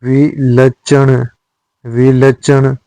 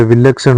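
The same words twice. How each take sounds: First: विलक्षण slowly as "vilachchhan"; wrong cluster. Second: विलक्षण with joined ksh; correct cluster. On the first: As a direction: put chh in विलक्षण. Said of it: "नहीं होता है". (विलक्षण में छ) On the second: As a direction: say विलक्षण as "vilakshan". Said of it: "होता है". (विलक्षण में शुद्ध क्ष) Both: Shown as a demonstration.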